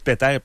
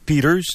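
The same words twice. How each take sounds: First: The name is pronounced the French way. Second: The name is pronounced the English way. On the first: The bearer of the name is not an English speaker. The speaker calls it right. "moi, je dis Peter parce que c'est pas un anglophone" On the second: The name is treated as an English name. The speaker calls it wrong. "c'est la façon anglaise de dire son nom"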